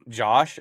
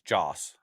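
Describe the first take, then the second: First: The name ends with an sh sound. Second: The name ends with an s sound. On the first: The speaker calls it wrong. "it's not Josh" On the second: The speaker calls it right. "it's Joss, J O S S"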